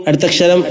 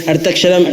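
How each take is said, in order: No difference in how they are said.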